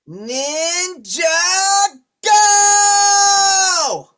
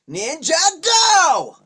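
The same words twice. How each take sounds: First: It is drawn out slowly. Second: It is said quickly and urgently.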